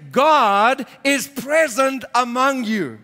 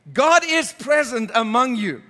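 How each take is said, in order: First: Slow, weighty, stress on God; slow emphatic quote. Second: Said in the usual way. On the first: Acted. Pastor quoting Jesus to the congregation, slow and weighty. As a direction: lean on God and let it land slowly.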